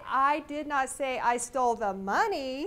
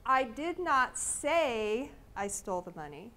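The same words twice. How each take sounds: First: The stress falls on the word 'money'. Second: The stress falls on the word 'say'. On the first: Something other than money was stolen. "I probably stole something, but it wasn't money" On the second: The speaker may have stolen it but won't admit it. "it leads you to believe that I might have stolen it, but I'm not saying so"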